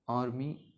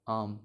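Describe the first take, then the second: First: आर्मी with the same long आ; demo word army. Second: आर्म with a long open आ; demo word arm. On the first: Teacher contrasts आर्मी with आर्म, stretching the आ. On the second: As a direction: stretch the आ in आर्म for a student. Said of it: "जैसे आर्म". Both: Shown as a demonstration.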